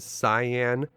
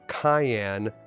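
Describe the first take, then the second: First: The name sounds like the word cyan. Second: The name sounds like the word cayenne. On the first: "if you like to pronounce this guy's name as Cyan" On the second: "they spell his name out Cayenne like the pepper"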